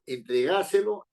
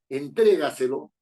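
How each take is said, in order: First: The stress falls on a syllable other than tre. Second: The stress falls on the syllable tre. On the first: The speaker calls it wrong. "yo no digo" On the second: The speaker calls it right. "la fuerza de voz está en tre"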